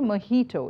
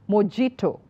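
First: The middle consonant is not a j sound. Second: The middle consonant is a j sound. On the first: The speaker calls it right. "So it should be mojito" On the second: The speaker calls it wrong. "It's not mojito"

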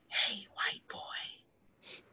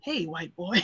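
First: It is said quietly, under the breath. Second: It is said louder, out loud.

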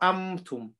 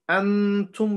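First: The n is turned into an m sound. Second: The n is pronounced clearly with the tongue. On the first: "not amtum" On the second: "instead of pronouncing it from our tongue"

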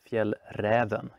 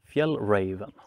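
First: It is said with a northern Swedish pronunciation. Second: It is said with a non-Swedish, anglicized pronunciation. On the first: The speaker calls it right. "if you're from northern parts of Sweden" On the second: The speaker calls it wrong. "I hear people call it"

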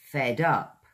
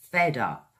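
First: The two words are joined into one. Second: The same.

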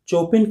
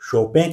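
First: The name starts with 'ch' and ends 'in'. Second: The name ends in a nasal 'en' sound. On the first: "चोपिन कहना पूरी तरह गलत होगा" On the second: "कुछ लोग शोपें कहते हैं"

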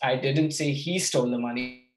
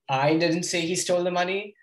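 First: The word he is stressed. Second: The word I is stressed.

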